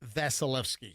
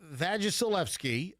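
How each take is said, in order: First: The name has no extra 'gi' syllable. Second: The name has an extra 'gi' syllable. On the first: The speaker calls it right. "I know that it's uh, Vasilevsky" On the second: The speaker calls it wrong. "Did I mispronounce the last name?"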